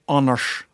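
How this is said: The name is said with a Norwegian pronunciation.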